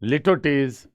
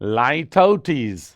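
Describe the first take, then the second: First: The first syllable is a short "lit" sound. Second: The first syllable is a long "lie" sound. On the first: The speaker calls it wrong. "ऐसे नहीं पढ़ना है" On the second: The speaker calls it right. "ये याद रखें"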